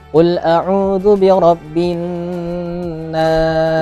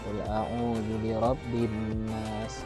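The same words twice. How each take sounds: First: It is recited loudly with strong energy. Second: It is recited weakly, without energy.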